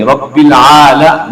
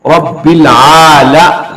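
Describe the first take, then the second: First: "रब्बिल आला" slow, with the a kept short; correct, unstretched; short vowel. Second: "रब्बिल आला" very slow with the a stretched; drawn-out vowel. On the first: (जबर बिना खींचे) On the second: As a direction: wrongly lengthen the a. (जबर को खींचकर पढ़ना) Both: Shown as a demonstration. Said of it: "इसको नहीं खींचेंगे".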